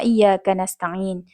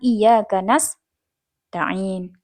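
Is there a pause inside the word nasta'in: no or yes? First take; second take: no; yes. First: The word is said smoothly without any break. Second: A short break falls between the sin and ta. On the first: The speaker calls it right. "terus disambung, jangan berhenti di situ" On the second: The speaker calls it wrong.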